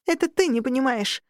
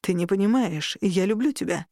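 First: High, indignant retort with «ты» stressed; yelling. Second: Restrained, explaining tone; earnest plea. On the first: Girl answering the incubus, high-pitched mild yell. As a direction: throw it back at him in anger. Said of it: "заорала, срывая голос". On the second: Incubus straightening to explain his love, restrained and earnest. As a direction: reason with her earnestly. Incubus pleads before her retort. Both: A narrator's reading.

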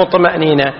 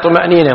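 First: طمأنينة with an a after the ط; mistaken fatha. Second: طمأنينة with a u after the ط; damma on ط. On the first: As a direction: say طمأنينة as tama'nina. (طمأنينة بفتح الطاء خطأً) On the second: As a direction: say طمأنينة as tuma'nina. (طمأنينة بضم الطاء) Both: Shown as a demonstration. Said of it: "بضم الطاء وليس بفتحها".

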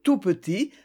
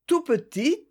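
First: Said in the usual way. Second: "tout petit" dit bien plus haut; tout petit insisté. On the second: A narrator's reading. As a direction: monter la voix sur "tout petit". Répétition insistante. ("tout petit" prononcé plus aigu, insistant)

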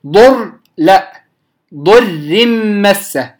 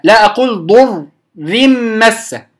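First: ضر مسه with a thin ra, very slow; drawn-out model of ضر مسه; slow recitation demo; correct slow reading. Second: ضر مسه with a heavy ra; wrong reading. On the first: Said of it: "من أول الراء وهي مرققة". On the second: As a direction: demo of the mistaken ضر. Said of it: "خطأ". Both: Shown as a demonstration.

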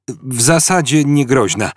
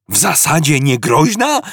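First: Mildly awkward, a touch of embarrassment; embarrassed. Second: Higher, incredulous rising shout on "niegroźna"; shouted question. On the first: Ford admits the new entry, mildly embarrassed. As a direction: mumble it a little sheepishly. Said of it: "chrząkając z lekkim zakłopotaniem". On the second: Arthur repeats Ford's words, incredulous shout. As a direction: throw it back at him in disbelief. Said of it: "krzyknął Artur". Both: A narrator's reading.

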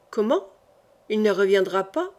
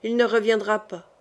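First: Il ne reviendra pas rising in disbelief, pas lifted at the end; a touch of stunned, hopeful surprise; echoing the news back as a startled question; astonished cry. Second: Said in the usual way. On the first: A narrator's reading. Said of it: "s'écria Henri".

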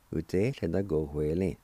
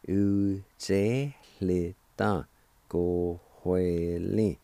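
First: Said in the usual way. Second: U te le ta ko hue le said slowly as one word; slowly joined. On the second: Shown as a demonstration. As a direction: draw the whole word out slowly so learners can follow. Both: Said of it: "And together".

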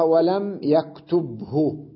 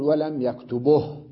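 First: يكتبه very slowly as yaktub-hu; original full form. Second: يكتبه as yaktubuh, stopping on h; pause with vowel transfer. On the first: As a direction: vowelless ب, then clear hu in يكتبه. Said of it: "أصلها". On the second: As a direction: slowly move the u of يكتبه onto the ب. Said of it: "لما أقف عليها أقول". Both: Shown as a demonstration.

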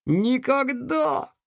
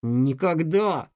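First: «Никогда!» cried high and slow; defiant cry. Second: Slow «Никогда!» muttered through clenched teeth; gritted teeth. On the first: Повторный вызов Алекса. («Никогда!» громко и с вызовом) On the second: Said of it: "пробормотал он, стиснув зубы". («Никогда!» сквозь стиснутые зубы) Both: Acted.

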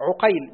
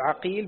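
First: عقيل as ʿuqayl, short u then ay; damma on ayn. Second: عقيل as ʿaqīl, short a then long ī; fatha on ayn. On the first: Student reading names to his teacher, عقيل as ʿuqayl. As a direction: round the ع of عقيل with u. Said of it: "بضم العين". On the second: Student reading names to his teacher, عقيل as ʿaqīl. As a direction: open the ع of عقيل with a. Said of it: "بفتح العين". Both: Shown as a demonstration.

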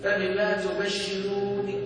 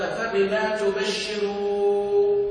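First: فبما تبشروني slow, with a clear light ن; recited again. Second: فبما تبشروني chanted slowly, the nun single and not doubled; Quranic recitation. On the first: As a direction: say تبشروني with a single ن, not doubled. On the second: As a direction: recite تبشروني with one light ن. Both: Shown as a demonstration. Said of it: "مش بالتشديد".

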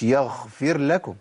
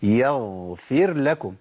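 First: يغفر with a breathy kh for gh; wrong ghayn. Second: Slow يغفر with a long voiced gh; correct ghayn. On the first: Teacher showing what it is not, deliberately mispronounced. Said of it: "مش يغفر لكم". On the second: Teacher giving students the right form, carefully articulated. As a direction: hold the voiced ghayn in يغفر, cutting off breath. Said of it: "يبقى إيه؟". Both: Shown as a demonstration.

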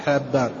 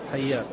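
First: حابان with a doubled b in place of y; wrong reading. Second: حيان with a short a after the h; fatha reading. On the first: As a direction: say حابان with the one-dot ba, as Habban. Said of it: "ليس بالموحدة، ليس حبان". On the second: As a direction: say حيان as Hayyan, doubled y and open first vowel. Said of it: "مشهور بالفتح". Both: Shown as a demonstration.

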